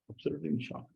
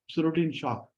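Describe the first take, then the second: First: Hushed repeat. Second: Said in the usual way. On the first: Shown as a demonstration. Teacher echoing the gopi's shock, much softer and awed.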